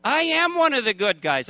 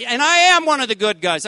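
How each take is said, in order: First: Said in the usual way. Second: "am" punched louder, higher; stress on am. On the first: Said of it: "God, this is not right". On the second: Retold or imitated. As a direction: lean hard on "am" in "I am one of the good guys". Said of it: "It's like God owes me something".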